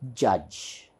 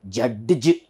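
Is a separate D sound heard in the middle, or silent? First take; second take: silent; heard. First: No separate D sound is heard mid-word. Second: A separate D sound is heard mid-word. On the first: It is the exact pronunciation. The speaker calls it right. "D is actually silent" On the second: It is pronounced by following the spelling. The speaker calls it wrong. "some of people who don't know exact pronunciation, they may see this J U D"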